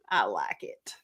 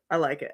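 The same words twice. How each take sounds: First: Soft whispered confession. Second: Said in the usual way. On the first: Real, not acted. Confiding her own version of Jesus, whispered. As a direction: whisper it like a little secret.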